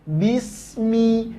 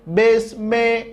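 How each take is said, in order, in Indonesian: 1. Vokalnya dibaca seperti bunyi i yang jelas. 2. Vokalnya dibaca seperti bunyi e. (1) "tapi bismi, jelas baris bawahnya" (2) "Jangan ... besme"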